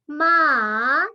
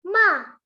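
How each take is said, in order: First: It is said with the third tone. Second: It is said with the fourth tone. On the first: "nada ketiga" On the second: "nada keempat"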